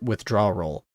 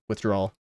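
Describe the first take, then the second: First: The word ends with an extra 'roll' sound. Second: The word ends with a plain 'ol' sound. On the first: The speaker calls it wrong. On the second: The speaker calls it right.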